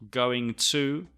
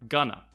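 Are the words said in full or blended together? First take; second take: full; blended. First: Both words are said fully and separately. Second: The words blend into one reduced form.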